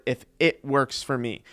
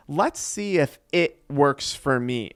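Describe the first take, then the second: First: "if" given weight, the rest falling away; stress on if. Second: Said in the usual way. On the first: Shown as a demonstration. Coach stressing "if" to viewers about doubtful quitters. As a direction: lean on "if" in "if it works for me". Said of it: "I wanna emphasize the word". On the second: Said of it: "This is the person that's gonna say".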